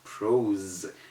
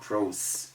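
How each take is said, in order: First: The final consonant is a buzzing Z sound. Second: The final consonant is a hissing S sound. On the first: The speaker calls it right. "It is called prose" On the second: The speaker calls it wrong. "it is not called prose"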